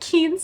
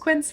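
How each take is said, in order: First: The name starts with a plain 'k' sound. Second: The name starts with a 'kw' sound. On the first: The speaker calls it wrong. "I'm pretty sure I pronounced it wrong. I was calling it" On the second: The speaker calls it right. "thank you to whoever told me it was"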